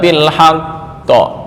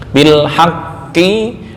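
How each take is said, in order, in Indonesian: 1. Kata ini berakhir dengan pantulan yang kuat. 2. Kata ini berakhir dengan vokal penuh.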